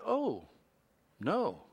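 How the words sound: It sounds mild and prim, like C-3PO.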